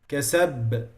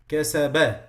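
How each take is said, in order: First: The final consonant bounces with no added vowel. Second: The final consonant gets a short added vowel. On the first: The speaker calls it right. "Now I'm just moving from the articulation point" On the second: The speaker calls it wrong. "So I am adding voice and I'm moving my"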